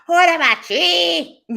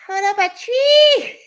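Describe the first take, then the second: First: High, slow mock yell; laughing shout. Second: Laughing yell, pitched far up and slow; laughing shout. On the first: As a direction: yell it again, still giggling. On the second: Retold or imitated. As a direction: shout through a laugh at the toddler. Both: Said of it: "I'm like".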